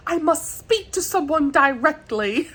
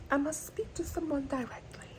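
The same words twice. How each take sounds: First: High, hammed-up British accent; attempted British accent. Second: High, hushed mock-British accent; fancy British accent. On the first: Vlogger imitating period drama line, mock British accent. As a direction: put on a fancy, matter-of-fact British accent. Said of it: "I'm not good at accents". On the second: Vlogger savouring drama line, soft fancy British accent. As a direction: repeat it softly in a put-on fancy British accent. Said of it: "it just feels so fancy".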